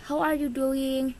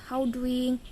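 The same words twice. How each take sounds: First: Said in the usual way. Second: "how doing" with "are you" dropped; reduced form. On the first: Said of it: "kata yang dikurangi itu". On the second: Shown as a demonstration. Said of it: "dinamakan kata yang dikurangi". ("how doing", bentuk kata yang dikurangi)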